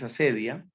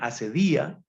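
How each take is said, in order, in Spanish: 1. El acento cae en la segunda sílaba. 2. El acento cae en la tercera sílaba. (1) "la pronunciación más común es asedia" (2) "unos también la acentúan asedía"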